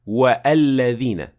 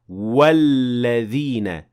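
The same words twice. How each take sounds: First: A glottal stop is pronounced after the waw. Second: The waw links straight on, with no glottal stop. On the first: The speaker calls it wrong. "We don't say" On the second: The speaker calls it right. "hamzat al-wasl is dropped because I pronounced the waw before linking it directly to the following word"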